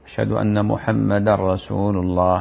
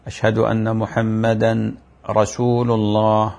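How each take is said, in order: First: "محمدا رسول" with the tanween merged into the ra, "muhammadar-rasul"; the correct way, tanween assimilated; correct assimilation. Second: "محمدا رسول" with the n of the tanween said clearly before ra, chanted slowly; no assimilation. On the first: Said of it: "هذا الصحيح". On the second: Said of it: "هذا لحن خفي". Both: Shown as a demonstration.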